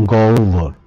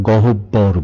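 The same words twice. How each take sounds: First: Slow, careful গহ্বর said as gowbhor; correct pronunciation. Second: Slow গহব্বর said as gohobbor with a doubled b; গহব্বর spoken slowly, with a full h and a heavy bb; common mispronunciation. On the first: Teacher slowly models the correct গহ্বর. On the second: Teacher slowly shows the wrong গহব্বর. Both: Shown as a demonstration. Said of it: "আমরা গহব্বর বলি".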